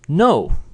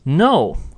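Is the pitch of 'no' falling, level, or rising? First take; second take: falling; falling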